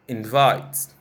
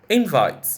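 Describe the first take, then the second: First: The stress is on the second syllable. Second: The stress is on the first syllable. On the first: It is a verb. "and the verb form" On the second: It is a noun. "I'll give you the noun first"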